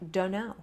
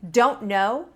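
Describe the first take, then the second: First: The words melt together into one reduced form. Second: Each word is said fully and separately.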